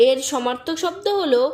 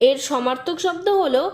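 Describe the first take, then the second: No difference in how they are said.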